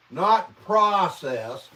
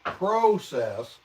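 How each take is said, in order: First: "process" said with the short A sound, PRAH-sess, slowed; slow, pointed PRAH-sess for "process"; "process" with an AH, corrected; American pronunciation. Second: "process" said with a long O, PROH-sess; British pronunciation. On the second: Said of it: "The word process is said". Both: Shown as a demonstration.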